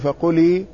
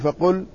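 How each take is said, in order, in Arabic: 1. اللام الأخيرة عليها كسرة. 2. اللام الأخيرة تُنطق بدون حركة.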